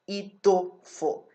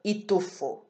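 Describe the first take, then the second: First: Itufo slowly, middle tu strong; slow Igbo stress demo. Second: Itufo with the middle syllable tu strong; Igbo stress in the middle. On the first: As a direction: drag out itufo, hitting tu. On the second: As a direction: lean on tu in itufo. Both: Shown as a demonstration. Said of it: "the strong syllable in the middle".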